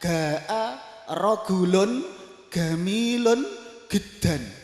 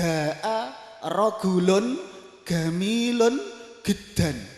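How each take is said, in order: First: The letter jim is said as a hard g. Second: The same.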